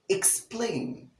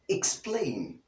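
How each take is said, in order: First: The word has a clear K sound after E. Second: The same.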